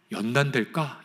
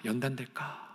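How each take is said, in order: First: Said in the usual way. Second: 연단될까 repeated much softer, like an inner echo. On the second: Shown as a demonstration. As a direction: let the second 연단될까 fall away quietly to yourself. (연단될까를 혼잣말처럼 아주 작게 되뇌기) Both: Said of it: "이런 생각을 단 한 가지만 해본다고 생각해 보십시오".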